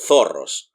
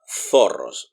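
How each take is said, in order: First: The first sound is a lisped th. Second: The first sound is a lisped th.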